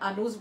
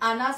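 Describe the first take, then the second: First: The second vowel sounds like 'u'. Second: The second vowel sounds like 'a'. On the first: The speaker calls it wrong. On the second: The speaker calls it right.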